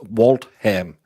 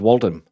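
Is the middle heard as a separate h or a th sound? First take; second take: separate h; th sound. First: The h is sounded separately after the t. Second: The t and h merge into a th sound. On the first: This is how locals say the town name. "How can Waltham be pronounced Waltham?" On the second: This is how an outsider expects the name to sound. "Why isn't it Waltham?"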